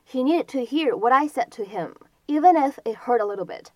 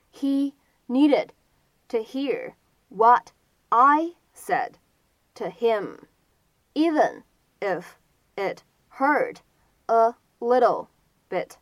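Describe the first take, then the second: First: Said in the usual way. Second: Very slow, a clear pause between chunks; slow word-by-word demo. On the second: Shown as a demonstration. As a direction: model each word separately for learners. Teacher repeats sentence slowly, word by word.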